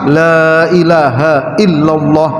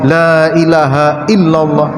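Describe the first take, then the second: No difference in how they are said.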